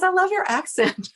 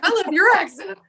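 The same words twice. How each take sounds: First: High, gushing compliment; Megan's voice. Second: High, louder gushing echo; echoing back. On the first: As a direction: imitate her sweet high delivery. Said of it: "And she goes". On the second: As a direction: throw the compliment right back, delighted. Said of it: "And I was like". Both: Retold or imitated.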